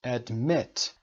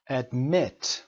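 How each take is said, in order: Both takes have the same delivery.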